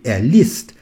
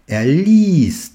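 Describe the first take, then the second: First: The vowel in liest is short. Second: The vowel in liest is long. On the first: The speaker calls it wrong. "sinon je devrais prononcer er liest. C'est faux" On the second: The speaker calls it right. "il s'agit d'une voyelle longue"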